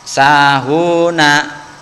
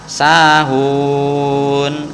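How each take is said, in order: First: The word ends with a short final vowel. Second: The word ends on a consonant, vowel dropped. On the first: The reading continues without stopping. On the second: The reading stops here.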